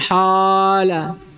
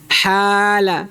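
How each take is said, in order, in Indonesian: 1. Vokal panjangnya tebal dan gelap. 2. Vokal panjangnya tipis dan terang. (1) "Bukan hala" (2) "maka dia juga ditipiskan"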